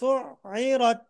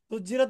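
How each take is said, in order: First: The middle consonant is a throaty 'ain' sound. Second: The middle consonant is a 'j' sound. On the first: The speaker calls it right. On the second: The speaker calls it wrong. "سجرت বলেনি তো"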